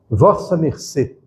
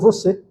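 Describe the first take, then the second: First: Four full syllables: vos-sa mer-cê. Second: Two syllables: vo-cê. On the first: This is the old full form of address. "nos textos mais antigos está assim" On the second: This is the current standard form. "depois virou você"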